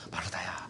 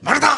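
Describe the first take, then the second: First: The name is called in a tender, pitying tone. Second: The name is called in a harsh, scolding tone.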